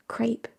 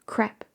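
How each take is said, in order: First: "Crepe" with an ay vowel, like "crape"; long A pronunciation. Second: "Crepe" with a short eh, like "crep"; short E pronunciation. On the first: Streamer weighing up the French word, "Crepe" with a long A. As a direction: say "Crepe" to rhyme with "grape", softly. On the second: Streamer weighing up the French word, "Crepe" with a short E. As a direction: say "Crepe" to rhyme with "step", softly. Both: Shown as a demonstration. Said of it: "It's with an A sound?".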